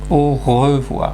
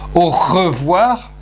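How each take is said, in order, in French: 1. Le R est adouci et doux, dans la gorge. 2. Le R est forcé et dur, dans la gorge. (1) "je dis au revoir" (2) "je ne dis pas au revoir"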